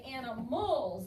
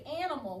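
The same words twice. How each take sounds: First: "animals" with the plural ending leaned on; "animals", final syllable and s made distinct; stressed plural ending. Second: Said in the usual way. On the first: Shown as a demonstration. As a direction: stretch the end of "animals" to show it is plural. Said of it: "We have to say animals". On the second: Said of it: "we can't just say animal".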